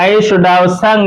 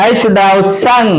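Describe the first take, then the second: Both takes have the same delivery.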